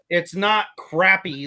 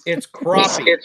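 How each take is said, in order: First: The first syllable sounds like 'crap'. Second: The first syllable sounds like 'crop'. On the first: This is how people in one region say it. The speaker calls it wrong. "like a certain part of the nation calls them" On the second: This is the proper name for the fish. The speaker calls it right.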